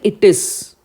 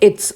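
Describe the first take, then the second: First: The two words are said separately in full. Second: The two words are contracted into one syllable. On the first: "I'm not saying it is" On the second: "I'm saying it's"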